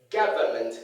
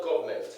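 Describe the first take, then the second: First: Government as GA-vuh-ment, low-pitched; correct pronunciation. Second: Government as "GOV-ment"; mispronunciation. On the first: Teacher models how it is pronounced, correct pronunciation. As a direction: open "ga" in "government", then sound "vuh-ment". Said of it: "It's pronounced". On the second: Teacher shows what not to say, mispronunciation. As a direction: squash "government" to two syllables with an o. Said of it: "not government". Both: Shown as a demonstration.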